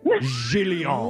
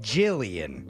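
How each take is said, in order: First: The name is pronounced in a fancy, posh way. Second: The name is pronounced in an ordinary, plain way. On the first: This is the refined way befitting a renowned painter. The speaker calls it right. "But no, she is renowned painter" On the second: This is how ordinary people say it. The speaker calls it wrong. "the layman's people might pronounce it"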